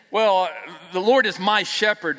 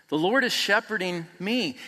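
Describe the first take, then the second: First: "Well, the Lord is my shepherd" said smug and loud; possessive mock tone. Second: "The Lord is shepherding me." with Lord stressed and falling. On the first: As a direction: sound like you own him. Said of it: "like I might have some kind of say". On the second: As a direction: lean on "Lord", let it fall. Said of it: "And instead of it being". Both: Shown as a demonstration.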